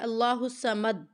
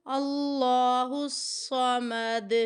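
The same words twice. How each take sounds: First: اللہ الصمد cut off flat at مد with no bounce; wrong way. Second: Slow اللہ الصمد with the final د gently bounced; right way. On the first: Retold or imitated. Teacher mimics a student's mistake without qalqala. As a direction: imitate a student stopping dead on الصمد. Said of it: "مد کہہ کے چپ کر گئی". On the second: Shown as a demonstration. Teacher corrects the student with proper qalqala. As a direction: shake the end of الصمد lightly. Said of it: "لفظ کو تھوڑا سا ہلانا ہے".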